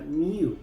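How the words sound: It is said in a British way. "en Gran Bretaña sí se pronuncia new"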